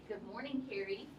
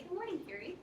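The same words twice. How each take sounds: First: It is said in a disrespectful, dismissive tone. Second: It is said in a warm, respectful tone.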